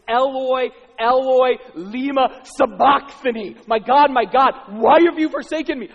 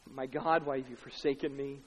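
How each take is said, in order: First: High, very loud cry to God; loud anguished cry. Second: Said in the usual way. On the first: Acted. Preacher as Jesus crying to God, loud cry. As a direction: cry out at full voice, forsaken. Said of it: "he cries out with a loud voice".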